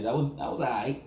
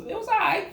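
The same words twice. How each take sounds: First: Said in the usual way. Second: Mock high meh. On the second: Mocking lukewarm verdict.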